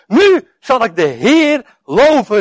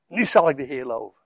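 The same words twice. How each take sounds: First: Slow, higher, louder cry of praise; exclaiming praise. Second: Softer, lower echo of the praise; quiet repeat. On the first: Acted. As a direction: Lea calls it out slowly. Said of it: "riep ze uit". (uitroepend, langzaam en luid lovend) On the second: Shown as a demonstration. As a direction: murmur it back reflectively. (zachte, lagere herhaling)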